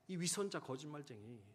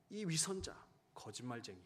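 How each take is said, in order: First: Repeated angry accusation. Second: Angry accusation. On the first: Wife repeating her accusation at midnight, angry. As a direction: hurl the words at him again. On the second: Wife scolding husband coming home late, angry accusation. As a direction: scold him as a liar and hypocrite. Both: Retold or imitated. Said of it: "그렇게 화를 내며".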